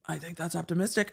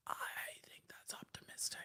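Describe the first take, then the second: First: Said in the usual way. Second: Whisper. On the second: Pretend. Whispered repeat of the phrase.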